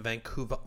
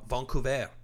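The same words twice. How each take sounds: First: Said in the usual way. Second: Vancouver said the French way, "von-coo-vay"; French pronunciation. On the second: Shown as a demonstration. Host re-saying Vancouver for Canadian listeners, in a French accent. Repeats the city name French style.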